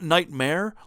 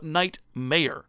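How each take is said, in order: First: It sounds like the single word nightmare. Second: It sounds like two words, night mayor. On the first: It refers to a bad dream. "like you're having a fucking dream" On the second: It refers to a mayor of the night. "like he's the mayor of the night"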